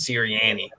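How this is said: The name is said in a Delco accent. "if you're from Delco"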